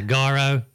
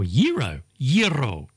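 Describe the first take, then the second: First: Gyro with a hard start, GAH-ro; mispronunciation. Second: Gyro with a y start, YEE-ro; correct pronunciation. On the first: Host showing one version, gyro as GAH-ro. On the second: Host correcting the word, gyro as YEE-ro. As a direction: say gyro as YEE-roh, twice. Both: Shown as a demonstration. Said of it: "Instead of".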